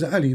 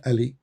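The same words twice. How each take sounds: First: "Ali" with the Arabic throat sound at the start; correct Arabic pronunciation. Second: "Ali" with a plain opening vowel; "Ali" with no throat sound; anglicised pronunciation. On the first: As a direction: say "Ali" as in Arabic, opening on an ayn. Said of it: "It is Ali, not Ali". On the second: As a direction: say "Ali" the English way, without the ayn. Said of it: "not Ali". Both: Shown as a demonstration.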